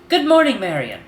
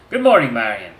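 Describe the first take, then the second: First: It is said in another character's voice. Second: It is said in Malcolm's voice.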